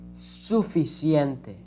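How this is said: The c sounds like s in sun. This is how it is said in the Americas. "This is the pronunciation in the, the countries from America"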